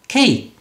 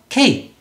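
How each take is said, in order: First: The word is said as one syllable. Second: The same.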